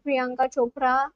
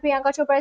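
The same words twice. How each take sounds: First: The name is said with an Indian pronunciation. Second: The name is said with an English pronunciation.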